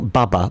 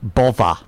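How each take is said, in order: First: The middle consonant sounds like a B. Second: The middle consonant sounds like a V. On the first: The speaker calls it wrong. "not Bubba" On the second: The speaker calls it right.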